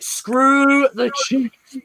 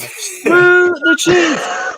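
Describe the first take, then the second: First: It is said at normal volume. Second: It is said loudly.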